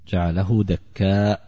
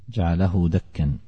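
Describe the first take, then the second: First: The last word ends with a long vowel and glottal stop. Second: The last word ends with a short vowel and n. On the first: "على قراءة الكوفيين الثلاثة حمزة وعاصم والكسائي" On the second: "بالتنوين من غير همس"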